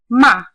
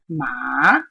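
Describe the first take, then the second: First: It is said with the falling fourth tone. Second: It is said with the dipping third tone. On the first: It means to scold. "the fourth tone" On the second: It means horse. "If I use the third tone"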